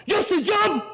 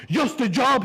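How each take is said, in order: First: Very high, loud shout; shouting dad. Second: High, loud indignant echo; incredulous dad. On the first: Dad shouting the repeat at his son, even higher and louder. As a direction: scream the words back even harder. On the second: Dad repeating his son's words, high and loud indignant. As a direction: fling the words back at him. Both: Retold or imitated.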